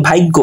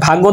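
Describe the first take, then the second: First: Second ভাগ্য as bhaiggo; inserted short i. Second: Said in the usual way. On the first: Shown as a demonstration. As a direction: glide a-i before gg in ভাগ্য. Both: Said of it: "রস্বইকার চলে এসেছে".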